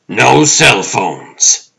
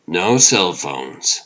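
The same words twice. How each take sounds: First: High, loud, slow insistence on NO CELL PHONES; paranoid roommate. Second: Said in the usual way. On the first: Acted. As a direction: lay down the rule loudly and slowly. Roommate voice, then calmer answer.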